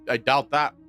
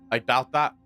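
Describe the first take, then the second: No difference in how they are said.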